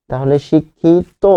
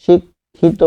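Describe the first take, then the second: First: শিক্ষিত stretched slowly, "shikkhit"; slow pronunciation. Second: শিক্ষিত said higher as "shikkhito" with a final o; modeled pronunciation. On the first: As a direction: drag out শিক্ষিত for the class. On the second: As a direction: lift শিক্ষিত, sounding the end o. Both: Shown as a demonstration. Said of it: "উচ্চারণটা হবে তো".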